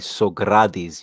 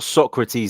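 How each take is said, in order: First: The stress is on the 'a' syllable. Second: The stress is not on the 'a' syllable. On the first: This is the Greek form of the name. The speaker calls it right. "You'd put the emphasis over the A" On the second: This is the Brazilian form of the name. The speaker calls it wrong. "it's not Socrates like the Brazilian"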